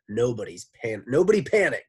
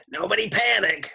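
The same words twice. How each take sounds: First: Miss Mush voice. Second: High, loud sloshing lady voice; Miss Mush voice. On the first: A narrator's reading. Miss Mush voice before redo. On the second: Shown as a demonstration. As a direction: redo it as the sloppy lunch lady. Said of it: "let me do Miss Mush's voice".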